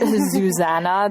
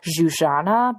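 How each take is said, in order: First: The name has an English-style pronunciation. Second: The name has a Hungarian-style pronunciation. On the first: The speaker calls it wrong. "I've been calling her Zuzana this whole time" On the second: The speaker calls it right. "you taught me how to correctly pronounce her full name"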